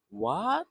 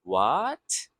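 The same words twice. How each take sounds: First: "What?" jumps up high in surprise; a sharp, high, surprised "What?"; surprised rising question. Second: Said in the usual way. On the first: Shown as a demonstration. Teacher showing how a surprised question rises. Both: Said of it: "It's like a surprise".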